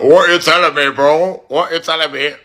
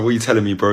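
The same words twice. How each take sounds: First: High, mimicked English accent; exaggerated English accent, pitched way up; mocking English accent. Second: Said in the usual way. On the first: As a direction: parrot it back in a mock English accent. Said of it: "Just the accent". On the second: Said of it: "And I was like".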